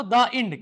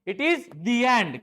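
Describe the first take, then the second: First: "The end" with "The" said as "da"; wrong take, "The" as "da". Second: "the end" slowly with "the" as "dee". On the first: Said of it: "तो अपन क्या पढ़ते थे इसको". ("The" को "दा" बोलना) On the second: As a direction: correct take, "the" as "dee". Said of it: "It is not the end". ("the" को "दी" बोलना) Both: Shown as a demonstration.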